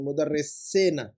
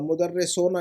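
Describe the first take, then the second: First: The vowel before the final syllable sounds like 'i'. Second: The vowel before the final syllable sounds like 'u'. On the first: The speaker calls it right. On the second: The speaker calls it wrong. "मुदर्रिसोना नहीं"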